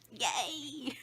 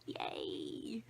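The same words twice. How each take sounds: First: Higher, bright mock celebration; mock cheer. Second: Sarcastic lower whisper, much softer; whispered yay. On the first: Ending the sad story to the camera with a higher mock cheer. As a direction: cheer it out ironically. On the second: Ending the sad story to the camera with a soft ironic whisper. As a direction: mutter a deflated cheer. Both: Real, not acted.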